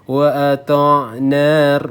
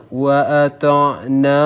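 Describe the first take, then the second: The two takes are said the same way.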